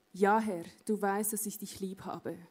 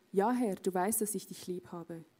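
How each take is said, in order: Both takes have the same delivery.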